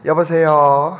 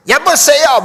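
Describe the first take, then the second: First: It is said in a calm, smooth tone. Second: It is shouted in an angry tone.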